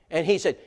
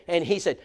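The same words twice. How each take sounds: The two takes are said the same way.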